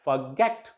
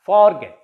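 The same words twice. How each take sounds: First: "forget" with short for-, stressed GET; forGET, weight on the end; stress on last syllable. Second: "forget" said as FOR-get; long, strong FOR in "forget"; wrong stress on first syllable. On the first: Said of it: "stress will be on the last syllable". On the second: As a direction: hit FOR, drop GET in "forget". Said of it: "not forget". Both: Shown as a demonstration.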